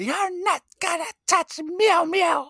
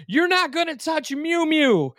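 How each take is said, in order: First: Slow squeaky falsetto; high mock character voice. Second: Squeaky falsetto quote of a possessive man; high mock character voice. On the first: Co-host repeating his favorite episode quote, slow falsetto. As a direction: drag it out high and precious. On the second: Podcast host quoting a villain about his cat, squeaky falsetto. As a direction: pitch way up, clutching the cat.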